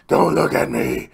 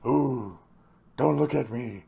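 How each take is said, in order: First: It is said in a deep, gravelly Batman voice. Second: It is said in a normal voice.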